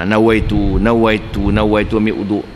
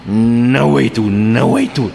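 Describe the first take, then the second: First: Low, repeated nawaitu of a doubter; repeated intention. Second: Nawaitu slowly drawn out on a held N; straining to intend. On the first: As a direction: say nawaitu over and over, low and steady. (niat berulang-ulang) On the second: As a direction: labour over each nawaitu like an obsessive doubter. Mimics doubter straining to intend. (niat meleret-leret penuh was-was) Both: Acted.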